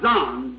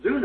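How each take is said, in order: First: "Zon" with a short open o; "Zon", rhyming with "on"; alternative pronunciation. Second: "Zoon" with a long oo; "Zoon", rhyming with "moon"; preferred pronunciation. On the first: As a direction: say "Zon", vowel as in "on". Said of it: "It might be pronounced Zon". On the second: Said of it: "Zoon, I'd say". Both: Shown as a demonstration.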